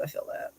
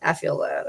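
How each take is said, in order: First: Breathy whispered echo. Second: Said in the usual way. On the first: Shown as a demonstration. Repeating her own line in a whisper. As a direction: drop it to a bare whisper.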